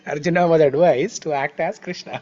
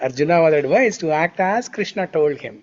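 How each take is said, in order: First: The phrase stops with a pause after Krishna. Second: The phrase runs on without a pause after Krishna. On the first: Arjuna was told to behave like Krishna himself. The speaker calls it wrong. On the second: Arjuna was told to follow Krishna's instructions. The speaker calls it right.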